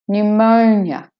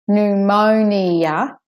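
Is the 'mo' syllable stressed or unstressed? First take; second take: stressed; unstressed. First: The 'mo' syllable carries the main stress. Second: The 'mo' syllable does not carry main stress. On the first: The speaker calls it right. "The O is the stress, main stressed syllable" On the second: The speaker calls it wrong. "So it's not pneumonia"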